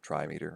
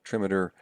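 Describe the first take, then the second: First: "trimeter" said as TRY-mee-ter; split-word pronunciation. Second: Said in the usual way. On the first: Shown as a demonstration. Teacher shows students the parts of a term, "trimeter" as TRY-mee-ter. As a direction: say "trimeter" with a long I and a full "meter". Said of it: "trimeter, right? Trimeter". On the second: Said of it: "Three feet per line".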